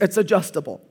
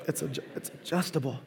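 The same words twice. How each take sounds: First: Said in the usual way. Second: Much softer throwaway repeat; quiet aside. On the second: Real, not acted. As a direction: mutter it to yourself.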